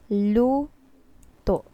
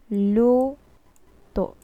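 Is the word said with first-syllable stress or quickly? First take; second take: first stress; first stress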